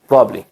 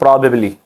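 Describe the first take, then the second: First: The word is reduced to two syllables. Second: The word is said fully with three syllables. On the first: "American accent में और fluent speaking में ये प्रॉब्ली पढ़ते हैं" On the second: "ई की sound देते हैं"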